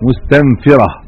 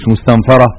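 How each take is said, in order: First: It is said as the active participle form. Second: It is said as the passive participle form. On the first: The animals stir each other up to flee. The speaker calls it right. "صيغه اسم فاعل مستنفره" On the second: Something else drives the animals to flee. The speaker calls it wrong. "لا مش مستنفره"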